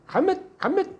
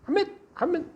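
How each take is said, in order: The two takes are said the same way.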